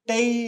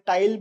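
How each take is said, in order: First: The word ends without any L sound. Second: The word ends with a clear L sound. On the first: "एल को इतना ज्यादा प्रोनाउंस नहीं करते, it would be टेई in French" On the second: "जिसको आप प्यार से टाइल बुला सकते हो"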